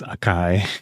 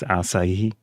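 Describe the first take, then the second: First: The word is said with two syllables. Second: The word is said with three syllables. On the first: This is how the speaker used to say it. The speaker calls it wrong. "I always used to pronounce this Akai" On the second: This is how the speaker now thinks it is said. The speaker calls it right. "I think it's Asahi"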